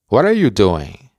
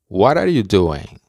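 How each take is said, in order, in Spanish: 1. La palabra are se pronuncia, enlazada con what. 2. La palabra are se pronuncia, enlazada con what.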